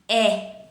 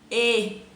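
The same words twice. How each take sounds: First: The vowel is said with an open sound. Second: The vowel is said with a closed sound. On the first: "um som aberto" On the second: "um som fechado"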